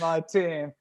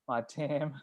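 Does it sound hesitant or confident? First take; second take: confident; hesitant. First: It is said firmly, with confidence. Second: It is said hesitantly, with little confidence.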